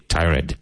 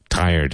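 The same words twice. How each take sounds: First: "tired" said as "tie-red"; wrong two-syllable "tired". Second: "tired" as "tire" plus a D; correct one-syllable "tired". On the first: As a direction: demonstrate the mistake, "tired" ending in a clear "red". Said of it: "But do not say tired". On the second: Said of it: "Tire. And just add a D". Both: Shown as a demonstration.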